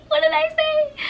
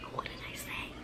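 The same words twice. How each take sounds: First: Very high squeaky mock panic; high-pitched squeal. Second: Barely audible, whispered question; stunned whisper. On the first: Girl just accused by her best friend, panicked squeal. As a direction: squeal the question, far above normal voice. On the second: Retold or imitated. Girl just accused by her best friend, stunned whisper. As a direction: whisper it in disbelief. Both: Acts out being confronted, two takes.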